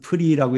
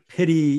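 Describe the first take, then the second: First: The first two consonants are run together without vowel. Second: A vowel is heard between the first two consonants. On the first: This is the usual modern pronunciation. "또는 프리라고 이렇게 발음할 수도 있습니다" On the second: This is the older classical pronunciation. "이걸 페리 이렇게 할 수도 있어요"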